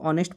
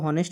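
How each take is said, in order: First: The word begins with a vowel, no h. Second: The word begins with an audible h sound. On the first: The speaker calls it right. "इसको ऑनेस्ट पढ़ते हैं, एच silent कर देते हैं" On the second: The speaker calls it wrong. "इसको हॉनेस्ट नहीं पढ़ते हैं"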